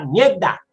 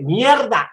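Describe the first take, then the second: First: Colombian Caribbean coast pronunciation; costeño accent. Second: Mock Bogotá highlander accent, pitched up; cachaco accent. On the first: Retold or imitated. Storyteller contrasting coastal speech with Bogotá's, costeño accent. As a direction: say it like a costeño, r swallowed into the d. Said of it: "así no se dice sino en la costa". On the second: Storyteller mimicking a cachaco in the workshop, cachaco accent. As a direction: imitate a cachaco attempting coastal slang. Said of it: "un cachaco, cuando uno tenía que decirle".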